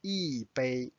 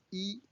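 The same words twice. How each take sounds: First: 一杯 with 一 falling, then 杯 level; fourth tone on 一. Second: 一 in its high first tone. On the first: Teacher repeats 一杯 to show 一 in fourth tone. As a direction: drop the pitch through 一 in 一杯. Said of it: "Notice it's a fourth tone". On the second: Teacher gives the normal pronunciation of 一, high first tone. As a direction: keep 一 up high, not falling. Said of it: "first tone". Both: Shown as a demonstration.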